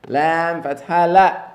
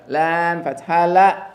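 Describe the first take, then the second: No difference in how they are said.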